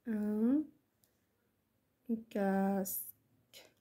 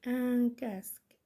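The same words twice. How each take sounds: First: Very slow, pause after ان; word-by-word dictation. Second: Slow, connected dictation. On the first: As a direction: say ان, wait, then stretch كاسك right out. Repeats word by word for writing. (إملاء بطيء جدا كلمة بكلمة) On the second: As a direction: repeat it slowly as one phrase. Repeats the dictated word as one phrase. (إملاء بطيء ومتصل) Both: Shown as a demonstration.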